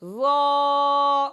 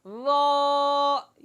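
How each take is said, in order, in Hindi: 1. स्वर मुँह खुला रखकर बोला जाता है। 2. स्वर मुँह खुला रखकर बोला जाता है।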